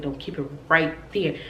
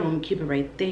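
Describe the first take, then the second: First: "right there" low and deliberate, no question lift; insistent reply. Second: "right there" rising as a question; low, teasing check on "keep it right there"; asking. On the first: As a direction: lean firmly on "right" in "right there". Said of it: "He's like". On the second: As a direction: ask it, lifting the end on "there". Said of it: "I'm like, "Do you like it?". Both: Retold or imitated.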